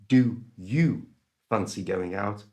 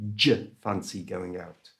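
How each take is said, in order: First: 'Do you' is said as two separate words. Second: 'Do you' is squashed into one j sound. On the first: The speaker calls it wrong. "So it's not do you fancy going out" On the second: The speaker calls it right. "do and you are being pronounced with a j sound"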